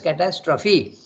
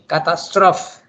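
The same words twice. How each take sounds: First: The final syllable is clearly pronounced. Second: The final syllable is dropped, French style. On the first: The speaker calls it right. "has to be pronounced as catastrophe" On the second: The speaker calls it wrong. "If you don't pronounce it, then it becomes French"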